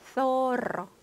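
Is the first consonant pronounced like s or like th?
th. The first consonant sounds like English th. This is how speakers in Spain say it. "스페인 스타일로 하면 소로"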